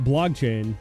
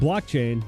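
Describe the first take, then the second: First: The first syllable ends with a G sound. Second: The first syllable ends with a clear K sound. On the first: The speaker calls it wrong. "not blogchain" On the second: The speaker calls it right. "I'm getting better at saying blockchain"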